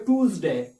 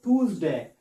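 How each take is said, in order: No difference in how they are said.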